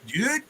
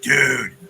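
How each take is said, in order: First: It sounds tense and frightened. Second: It sounds low and disappointed. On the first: Someone threatening has appeared. "is that you with an axe?" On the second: Someone failed to arrive. "oh, he didn't show up"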